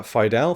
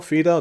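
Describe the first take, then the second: First: "Fidel" said as FIE-dal, rising like a question; unsure pronunciation. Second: "Fidel" said as fee-DEL, quick and higher; second try at the name. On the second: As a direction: correct yourself to "Fidel" as fee-DEL, said fast. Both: Shown as a demonstration. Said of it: "don't know how you pronounce that".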